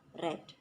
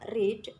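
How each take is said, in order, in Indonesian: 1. Vokalnya pendek, seperti di 'red'. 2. Vokalnya panjang, seperti di 'reed'. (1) "dibaca read" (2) "verb bentuk satunya read"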